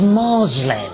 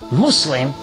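First: The word is pronounced a distorted way. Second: The word is pronounced the standard way. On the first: The speaker calls it wrong. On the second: The speaker calls it right.

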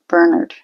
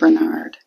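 First: The name is said the British way. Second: The name is said the non-British way. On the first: "in some British movies and that they'll pronounce it Bernard" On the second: "rather than Bernard"

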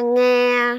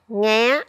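First: The syllable is said on a level tone. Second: The syllable is said on a high rising tone.

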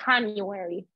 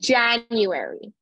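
First: It begins with a non-English J sound. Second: It begins with the English J sound. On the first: The speaker calls it wrong. "not January" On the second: The speaker calls it right.

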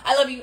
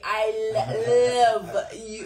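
First: It is said quickly and casually, words run together. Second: It is said slowly, each word clearly articulated. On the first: It is an offhand remark at the end of a call. The speaker calls it wrong. "He literally said it like at the end of some phone call" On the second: It is a deliberate, meaningful declaration. The speaker calls it right. "I need to enunciate"

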